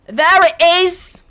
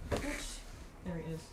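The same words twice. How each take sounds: First: High, drawn-out shout; loud exclamation. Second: Very soft, drawn-out murmur; quiet remark. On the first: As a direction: belt it out slowly and triumphantly. Repeats it as a big exclamation. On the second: Finds it, says it low first. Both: Real, not acted.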